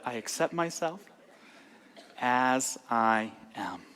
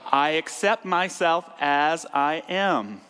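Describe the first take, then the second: First: It is said calmly, with lower energy. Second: It is said intensely, with high energy.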